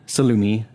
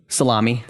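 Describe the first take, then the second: First: It is said with a posh Italian-style vowel. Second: It is said as plain English salami.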